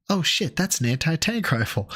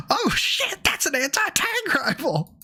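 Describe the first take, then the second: First: Said in the usual way. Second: Very high, squealing "Oh, shit" surprise; excited. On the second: Real, not acted. Repeats line much higher.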